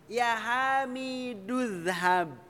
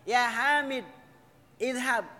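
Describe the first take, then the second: First: The words run together with no pause. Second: A pause separates the name from the verb. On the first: "Kalau membaca yang Ya Hamid dengan izhab digabung" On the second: "Kalau mau dijeda"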